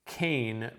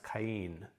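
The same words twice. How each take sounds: First: "Cain" as a single syllable, like "cane"; diphthong. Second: "Cain" in two syllables, ka-EEN; separated vowels. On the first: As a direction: blend the vowels of "Cain" into one glide. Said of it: "I made this a diphthong". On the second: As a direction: split "Cain" slowly into KA and EEN. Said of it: "is going to separate them out". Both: Shown as a demonstration.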